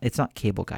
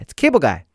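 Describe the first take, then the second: First: It is said plainly, without excitement. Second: It is said excitedly, with exclamation energy.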